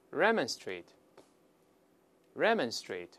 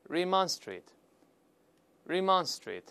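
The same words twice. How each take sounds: First: "remonstrate" slowly as REM-ən-strate, stress first; British pronunciation. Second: "remonstrate" slowly as ri-MON-strate, stress second; American pronunciation. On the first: Teacher repeats the British form for students, British pronunciation. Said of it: "再来一遍". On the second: Teacher reads the American form for students, American pronunciation. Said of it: "在美式发音读一下". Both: Shown as a demonstration.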